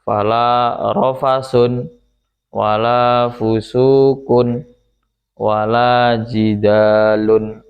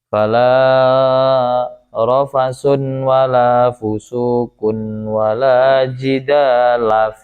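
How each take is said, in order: First: All three nouns end in -un. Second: The first two end in -un, the third in -a. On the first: "dibaca rofa semuanya dengan apa namanya ditanwin" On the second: "dibaca rofa dua lafaz yang awal, yang ketiga dimabnikan fathah"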